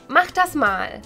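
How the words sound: The tone is irritated and demanding. Get it done now. "can either sound annoyed"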